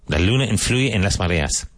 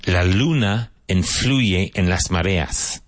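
First: Said in the usual way. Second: "La luna influye en las mareas" said slowly, word by word, for learners; slow model reading. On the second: Shown as a demonstration. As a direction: spell out the Spanish sentence slowly like a teacher. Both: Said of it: "Vaughan Translation Booklet seven".

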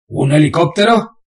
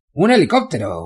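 First: Incredulous question. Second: Said in the usual way. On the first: Acted. Bane surprised.

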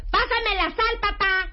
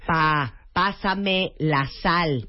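First: Shouting at dad. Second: Very slow, each word spelled out; slow and clear. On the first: Asking elderly dad for the salt, shouted the wrong way. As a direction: bellow it at him like he's deaf. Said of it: "No, no, no". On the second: Asking elderly dad for the salt, slowly and clearly. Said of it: "A ver, un ejemplo". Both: Shown as a demonstration.

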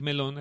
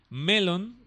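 First: "melón" stressed on the final syllable; ordinary fruit pronunciation. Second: "Melon" stressed on the E, higher and louder; Elvish pronunciation. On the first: Showing listeners the common misreading, "melón" stressed on the O. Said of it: "así como la fruta". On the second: Teaching the Elvish word for friend, "Melon" stressed on E. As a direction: hit the first syllable of "Melon", long L. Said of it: "con doble L y con acento en la E". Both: Shown as a demonstration.

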